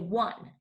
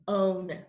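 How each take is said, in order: First: The word is said like 'won', with a W. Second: The word is said with a long O sound. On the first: The speaker calls it right. "We say one" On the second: The speaker calls it wrong. "We do not say O, N, own. We do not say that"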